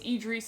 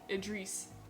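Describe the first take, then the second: First: The name begins with a long 'ee' sound. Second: The name begins with a short 'id' sound. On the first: "it would be E D R I S" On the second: "it's pronounced Id"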